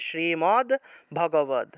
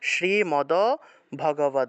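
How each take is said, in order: First: The d sounds are bare consonants. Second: The d sounds carry full vowels. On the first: "হসন্ত থাকলে একসাথে উচ্চারণ করতে হয়" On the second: "হসন্ত না থাকায় আলাদা আলাদা পূর্ণ উচ্চারণ করতে হবে"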